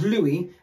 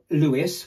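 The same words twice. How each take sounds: First: "Louis" as loo-ee, silent s; correct French Louis. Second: "Louis" as loo-iss, s sounded; wrong English Louis. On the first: Correcting the brand's first word, Louis with silent s. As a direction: leave the s off "Louis". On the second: Showing what it is not, Louis with sounded s. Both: Shown as a demonstration. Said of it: "It's not Louis".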